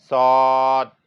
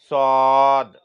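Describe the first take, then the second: The two takes are said the same way.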